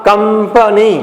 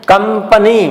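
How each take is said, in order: The two takes are said the same way.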